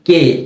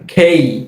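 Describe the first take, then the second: First: The k sound has no puff of air. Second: The k sound has a strong puff of air. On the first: The speaker calls it wrong. "এই বর্ণটাকে আমরা সবসময় বলি কে" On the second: The speaker calls it right. "সঠিক উচ্চারণ হচ্ছে খেই ... খ একার এর সাথে একটা রস্বই"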